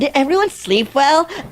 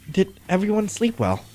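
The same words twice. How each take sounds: First: It is said in a Californian accent. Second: It is said in a plain voice.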